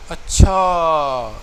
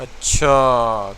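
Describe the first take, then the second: First: اچھا drawn out slowly and loud, amazed; a long, loud, surprised اچھا; the surprised "oh really" اچھا. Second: اچھا said low, slow and loud like a threat; a menacing, drawn-out اچھا, lower in pitch; threatening اچھا, as if squaring up to a rival; hostile. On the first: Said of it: "یعنی یہ surprising اچھا ہے". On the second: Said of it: "ایک دشمنی کا اچھا". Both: Shown as a demonstration.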